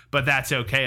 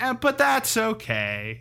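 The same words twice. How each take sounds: First: Said in the usual way. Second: High, drawn-out comedy punchline; imitated punchline. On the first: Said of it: "but instead of saying". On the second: Host quoting the Cosby bit's punchline, high drawn-out delivery. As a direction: stretch it out slowly, pitched way up. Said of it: "the Cosby bit's like".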